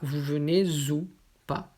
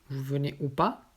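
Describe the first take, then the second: First: A linking z sound joins 'venez' and 'ou'. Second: The words are said separately, without a linking sound. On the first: The speaker calls it wrong. "on ne dit pas" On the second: The speaker calls it right. "sans lier"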